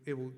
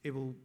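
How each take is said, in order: Both takes have the same delivery.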